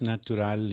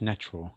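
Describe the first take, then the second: First: It is said with a Spanish pronunciation. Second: It is said with an English pronunciation. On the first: "natural in, in Spanish" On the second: "and in, in English, natural"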